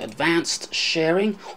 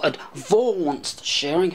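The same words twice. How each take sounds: First: It is said in a plain, everyday accent. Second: It is said in a marked English accent.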